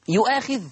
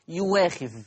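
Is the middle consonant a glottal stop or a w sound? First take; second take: glottal stop; w. First: The middle consonant is a glottal stop. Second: The middle consonant is a w sound. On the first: "الهمزة المفتوحة" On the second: "أبدلت إلى واو مفتوحة"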